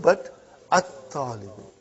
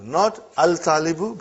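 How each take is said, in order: First: At-talibu with a doubled t and no lam; right take: at-talibu, double t; right assimilated form. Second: Al-talibu with the lam sounded, as the wrong form; wrong take: sound the l in al-talibu. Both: Shown as a demonstration.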